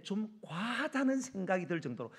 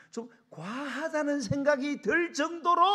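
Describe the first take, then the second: First: 과하다 stretched with raised pitch; firm push on 과하다, short of a shout; stress on 과하다. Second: Loud, high and slow, stretching 과하다; full-force emphasis. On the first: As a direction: lean on 과하다, moderately emphatic. First take of emphatic advice. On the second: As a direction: build it up into a preacher's cry. Repeats advice at full force. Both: Real, not acted.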